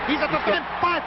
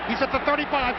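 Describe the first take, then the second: No difference in how they are said.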